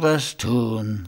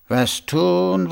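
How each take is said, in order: First: Quieter, falling musing repeat; softer pondering echo, was stressed; thoughtful. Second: Higher, musing question to himself; pondering, pitch lifted on tun; thoughtful. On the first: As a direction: let the second was tun sink to himself. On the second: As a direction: turn the problem over aloud. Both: A narrator's reading. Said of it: "sagte er nachdenklich".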